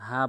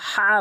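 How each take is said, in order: First: The h is a plain light breath. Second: The h comes from the middle throat. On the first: The speaker calls it wrong. "হা বলা যাবে না" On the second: The speaker calls it right. "হলকের মাঝখান থেকে"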